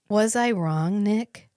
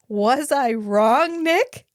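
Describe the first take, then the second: First: It is said with more composure. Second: It is said with less composure. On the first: The speaker calls it right. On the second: The speaker calls it wrong.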